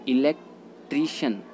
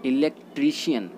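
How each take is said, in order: First: इलेक्ट्रीशियन ending in plain 'shun'; इलेक्ट्रीशियन in four syllables, no y glide; correct pronunciation. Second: इलेक्ट्रीशियन ending in 'shi-yan'; इलेक्ट्रीशियन with an extra i before the last vowel; common mispronunciation. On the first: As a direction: say इलेक्ट्रीशियन as 'i-lek-TREE-shun', slowly. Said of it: "इसका right होता है". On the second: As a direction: say इलेक्ट्रीशियन as 'i-lek-TREE-shi-yun'. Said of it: "इलेक्ट्रीशियन गलत होता है". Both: Shown as a demonstration.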